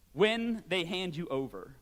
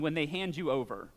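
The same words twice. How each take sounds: First: When lingered on and slowed, marking it apart from if; stress on When. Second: Said in the usual way. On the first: Shown as a demonstration. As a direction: lean on When, not if, said slowly. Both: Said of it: "notice it didn't say if".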